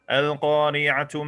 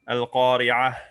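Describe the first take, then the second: First: The word ends with a full 'tu' syllable. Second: The word ends with a soft 'h' sound. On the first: The speaker continues into the next verse. "If you were to continue through them to the next ayah, then you would have to pronounce it like a ta" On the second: The speaker stops at the end of the verse. "pronounced like a ha"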